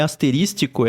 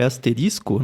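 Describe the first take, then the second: First: Asterístico said with an extra T, ending -ístico; wrong word form. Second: Asterisco ending cleanly in -isco; correct word form. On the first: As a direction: mispronounce it as "asterístico". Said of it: "assim como não é". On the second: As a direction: say "asterisco" with no T before the final CO. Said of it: "é asterisco". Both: Shown as a demonstration.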